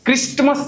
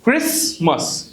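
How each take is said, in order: First: The T is sounded. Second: The T is silent. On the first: The speaker calls it wrong. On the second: The speaker calls it right.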